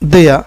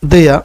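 Both takes have the same delivery.

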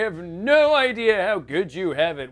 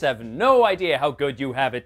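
First: It is said in a put-on old man voice. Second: It is said in the speaker's normal voice.

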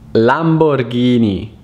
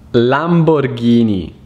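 First: The name is said with an Italian pronunciation. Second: The same.

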